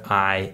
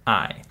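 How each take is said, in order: First: "I" said "ih" as in hit; short vowel "I", not "eye". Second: "I" said like the letter's name, "eye"; long "I" as in ice. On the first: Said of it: "these are considered short vowels". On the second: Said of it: "not I". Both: Shown as a demonstration.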